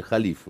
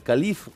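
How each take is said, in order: First: «халиф» with a breathy Х at the start; correct pronunciation. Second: «калиф» said with a hard К at the start, high and rising; wrong pronunciation. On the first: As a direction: start «халиф» with the throaty Х sound. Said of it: "на самом деле". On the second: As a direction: start «калиф» with a plain К sound, not the Х. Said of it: "это неправильно". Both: Shown as a demonstration.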